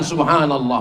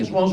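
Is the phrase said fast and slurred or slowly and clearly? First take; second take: slowly; fast. First: It is said slowly and clearly. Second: It is said very fast and slurred.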